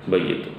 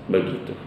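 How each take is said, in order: The two takes are said the same way.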